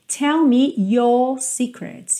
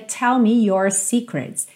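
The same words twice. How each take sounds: First: No R; the vowel is lengthened, British style. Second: The R in your is pronounced, American style.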